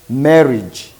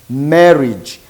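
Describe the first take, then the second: First: The vowel before the final -ge is silent. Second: The same.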